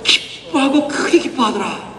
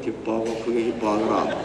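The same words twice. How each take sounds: First: It is said with joy and excitement. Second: It is said flatly, without much joy.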